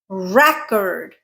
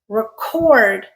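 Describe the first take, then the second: First: The stress is on the first syllable. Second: The stress is on the second syllable. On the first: It is a noun. "when we stress the first syllable" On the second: It is a verb. "When we stress the second syllable"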